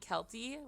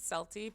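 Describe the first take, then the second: First: The name begins with a hard K sound. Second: The name begins with a soft S sound. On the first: This is how other people say the name. "people call me Kelty, which is fine" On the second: This is how the owner of the name says it. "I pronounce it Celty"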